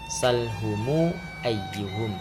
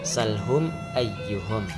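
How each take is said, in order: First: An added u vowel links the m onward. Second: The m ends without an added vowel.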